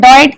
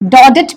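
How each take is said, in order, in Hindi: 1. इस नाम को 'Doyt' बोला जाता है। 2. इस नाम को 'Dodet' बोला जाता है। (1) "डॉयट इज द करेक्ट प्रोनाउंसिएशन" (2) "डॉडेट भी पढ़ते हैं"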